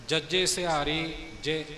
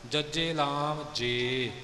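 First: ਜੇ said short, like ਜਿ; sihari sound. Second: ਜੇ said with a long drawn e; lam sound. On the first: Teacher showing ਜੇ with sihari, not with lam. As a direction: clip ਜੇ to a short i vowel. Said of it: "ਇਸ ਦਾ ਉਚਾਰਨ ਜੇ ਨਾ ਬਣੇ". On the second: Teacher showing the wrong ਜੇ with lam. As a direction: stretch ਜੇ into a full long e. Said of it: "ਲਾਮ ਨਾਲ ਨਹੀਂ ਹੋਣਾ ਚਾਹੀਦਾ". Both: Shown as a demonstration.

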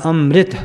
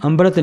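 First: ਅੰਮ੍ਰਿਤ said "amrit", r joined to m; half r straight after the m in ਅੰਮ੍ਰਿਤ; correct pronunciation demo. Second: ਅੰਮ੍ਰਿਤ said "ambarat", with an added b; ਅੰਮ੍ਰਿਤ with b and a full r syllable; wrong pronunciation demo. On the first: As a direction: say ਅੰਮ੍ਰਿਤ as am-rit, no b. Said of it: "ਮੰਮੇ ਨਾਲ". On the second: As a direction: break ਅੰਮ੍ਰਿਤ into am-ba-rat. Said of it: "ਅੰਮ੍ਰਿਤ ਨਹੀਂ ਕਹਿਣਾ, ਮੰਮੇ ਨਾਲ". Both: Shown as a demonstration.

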